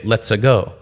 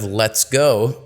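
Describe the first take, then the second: First: An extra vowel sits between the two words. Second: The consonants join with no vowel between. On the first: The speaker calls it wrong. "add a shadow vowel in between consonants" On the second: The speaker calls it right. "instead of let's go"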